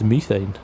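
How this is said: It is said with a British pronunciation. The speaker calls it right. "In the U K, it is methane"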